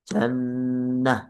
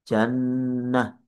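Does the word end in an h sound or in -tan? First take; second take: h sound; h sound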